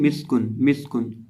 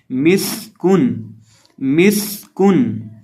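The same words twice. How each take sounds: First: मिस्कुन quick and casual, short dull स; seen without whistle. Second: मिस्कुन very slow, with a long whistling स; whistled seen. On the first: Teacher showing how people often misread it, unwhistled मिस्कुन. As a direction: rush through मिस्कुन with no hiss on the स. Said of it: "सीटी की आवाज़ पैदा ही नहीं". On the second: Teacher modelling tajweed, slow मिस्कुन with whistled स. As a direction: draw out a sharp hissing स in मिस्कुन, then a light क. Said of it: "इसको हम सिटी पैदा करके पढ़ेंगे". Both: Shown as a demonstration.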